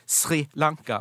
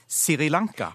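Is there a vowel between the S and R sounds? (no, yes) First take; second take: no; yes. First: The name begins with the sr cluster. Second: A vowel is inserted between s and r. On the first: "folk som ikke sier Sri Lanka" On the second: "De setter inn denne ekstra vokalen"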